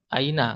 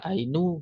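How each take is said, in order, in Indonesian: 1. Kata itu diakhiri dengan huruf vokal a. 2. Kata itu diakhiri dengan huruf vokal u. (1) "Aina harokat akhirnya tetap aina" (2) "nggak bisa ainu"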